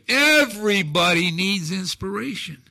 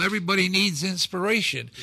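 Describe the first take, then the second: First: Everybody needs inspiration said again louder, EVERYBODY hit hardest; stronger repeat. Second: Said in the usual way. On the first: Real, not acted. Guest repeating his message to listeners, louder and emphatic. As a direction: drive the line home on the second time.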